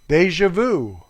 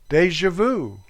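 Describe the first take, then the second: Both takes have the same delivery.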